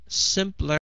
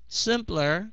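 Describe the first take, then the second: No difference in how they are said.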